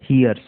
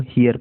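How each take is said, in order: First: "hears" ending in a clear s sound; hears with final s. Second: Hear said without any s; plain "hear" with no ending. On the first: Teacher contrasts "hears" with hear for students. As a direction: add a crisp s to the end of "hears". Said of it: "यहाँ पर apostrophe एस लगा है". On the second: Teacher shows the bare word "hear" to students. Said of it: "तो ये हो जाएगा hears". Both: Shown as a demonstration.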